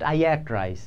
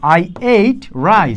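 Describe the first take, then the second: First: The verb has a short vowel, like 'at'. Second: The verb has a long vowel, like 'eight'. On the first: The speaker calls it wrong. "আমরা কিন্তু এটাকে জানতাম আজীবন অ্যাট" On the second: The speaker calls it right. "এটার উচ্চারণ হলো এইট"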